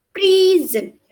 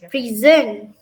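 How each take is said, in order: First: "prison" with the first syllable high and strong; first-syllable stress. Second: "Prison" with the weight moved onto the second syllable; second-syllable stress. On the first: Student giving the first example to classmates, "prison" stressed at the start. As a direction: hit PRI in "prison", then drop. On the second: Student giving a contrasting example to classmates, "Prison" stressed at the end. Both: Shown as a demonstration. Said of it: "For the word example".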